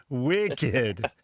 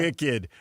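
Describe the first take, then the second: First: "wicked" in a hammed-up Boston accent, r-less and drawn out; mock Boston accent. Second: Said in the usual way. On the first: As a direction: imitate a Boston local saying "wicked". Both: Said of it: "a wicked Boston accent".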